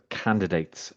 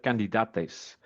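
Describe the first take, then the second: First: Said in the usual way. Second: Imitated AI slip on "candidates", said the German-voice way; mispronounced CANDIDATES. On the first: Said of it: "instead of candidates". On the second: Presenter showing viewers the AI voice's slip, "candidates" mispronounced. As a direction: say "candidates" with odd German-style vowels. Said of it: "it said candidates instead of candidates".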